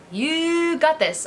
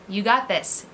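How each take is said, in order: First: "You got this" drawn out slowly, higher, with "got" hit hard; emphatic encouragement. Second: Said in the usual way. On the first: Shown as a demonstration. Mom repeats "You got this" to cheer viewers on, slow and emphatic. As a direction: stretch "You got this" and lean on "got".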